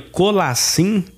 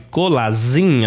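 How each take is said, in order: First: The middle consonant is a voiceless s sound. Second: The middle consonant is a voiced z sound. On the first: The speaker calls it right. "a pronúncia correta" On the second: The speaker calls it wrong. "não existe a pronúncia Z no grego"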